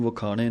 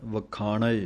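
First: ਵਖਾਣੇ ending in a plain e; the mistaken ਵਖਾਣੇ; wrong pronunciation. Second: ਵਖਾਣੈ ending in the open ai vowel; a clear open ai in ਵਖਾਣੈ; correct pronunciation. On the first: Teacher showing students the mistake, ਵਖਾਣੇ with a plain e. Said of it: "ਨਹੀਂ ਕਹਿਣਾ". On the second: Teacher showing students the right way, ਵਖਾਣੈ with an open ai. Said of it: "ਸੁੱਧ ਪਾਠ ਹੈ ਵਖਾਣੈ". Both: Shown as a demonstration.

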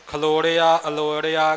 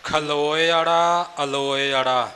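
First: ਖਲੋੜਿਆ, ਅਲੋੜਿਆ with sounds swapped to "loṛ-ia"; mispronunciation shown. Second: ਖਲੋਇੜਾ, ਅਲੋਇੜਾ slowly, "lo-e" before the flapped "ṛa"; careful pronunciation. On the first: Teacher showing how many misread, ਖਲੋੜਿਆ, ਅਲੋੜਿਆ ending "loṛ-ia". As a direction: put the ṛ early: ਖਲੋੜਿਆ, ਅਲੋੜਿਆ. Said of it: "ਕਈ ਇਉਂ ਪੜ੍ਹ ਜਾਂਦੇ ਨੇ". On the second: Teacher drilling hard words, ਖਲੋਇੜਾ, ਅਲੋਇੜਾ drawn out as "lo-e-ṛa". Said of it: "ਇਹਨਾਂ ਅੱਖਰਾਂ ਦੇ ਉਚਾਰਨ ਵਾਸਤੇ ਥੋੜ੍ਹੇ ਅਭਿਆਸ ਦੀ ਜ਼ਰੂਰਤ". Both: Shown as a demonstration.

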